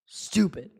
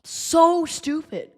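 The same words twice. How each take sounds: First: Low, much softer muttered stupid; deflated quiet aside. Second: Drawn-out, higher disgusted groan; slow exasperated so stupid. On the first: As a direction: mutter it under your breath in disgust. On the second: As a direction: stretch out the so in disgust. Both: Real, not acted. Fan disgusted at team.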